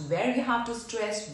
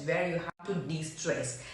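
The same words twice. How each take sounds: First: "stress" said with fuller weight; stressed phrase. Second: "de-stress" softer and lower; de-stressed phrase. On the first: Teacher explaining voice modulation, giving weight to "stress". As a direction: lean on "have to stress". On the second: Teacher explaining voice modulation, easing off low and soft on "de-stress". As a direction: let the voice drop away on "de-stress". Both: Shown as a demonstration.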